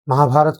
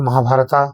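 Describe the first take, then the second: First: The word ends on a consonant sound. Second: The word ends with an added 'a' vowel. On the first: The speaker calls it right. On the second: The speaker calls it wrong.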